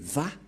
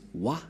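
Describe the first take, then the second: First: The syllable begins with a v sound. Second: The syllable begins with a w sound. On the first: The speaker calls it right. "mais Va pour les Juifs. Les Juifs le prononcent Va" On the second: The speaker calls it wrong. "C'est pourquoi les gens disent Wa. Mais en fait, ce n'est pas Wa, la vraie prononciation"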